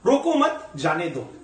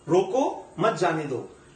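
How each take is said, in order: First: The pause comes right after मत. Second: The pause comes right after रोको.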